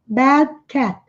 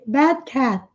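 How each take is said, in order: The two takes are said the same way.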